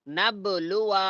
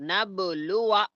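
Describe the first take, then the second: No difference in how they are said.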